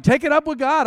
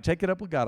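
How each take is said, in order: First: High, loud brush-off; exasperated retort. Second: Said in the usual way. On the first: Retold or imitated. Preacher answering angry people, loud brush-off. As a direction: throw it back at them loudly. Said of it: "but I'm like". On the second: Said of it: "I'm like".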